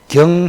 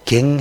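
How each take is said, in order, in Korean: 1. 이 음절은 'yeo' 모음으로 발음합니다. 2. 이 음절은 'ae' 모음으로 발음합니다. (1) "경 해도 되고" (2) "갱 해도 됩니다"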